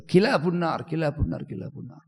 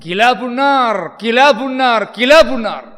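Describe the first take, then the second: First: Softer each time, ending in a whisper; fading repetition. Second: Slow, high, drawn-out pronouncement; solemn proclaimed cry. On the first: Abu Umamah repeating dogs of hell, fading into a whisper. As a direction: let the words die away to a breath. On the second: Abu Umamah declaring the dead Khawarij dogs of hell, slow solemn cry. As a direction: declare it slowly like a grave verdict. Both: Retold or imitated.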